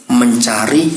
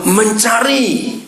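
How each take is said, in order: First: Said in the usual way. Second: Mencari drawn out high and slow; stressed slow mencari. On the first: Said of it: "tiga ini perhatikan". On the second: Shown as a demonstration. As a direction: stretch out mencari. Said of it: "three phases". (mencari panjang dan tinggi)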